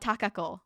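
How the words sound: The name is said with Japanese-style sounds. "with more of a Japanese like uh phonetics"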